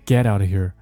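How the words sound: The stress falls on the word get. The speaker calls it wrong. "有些同学会把这个动词作为重点"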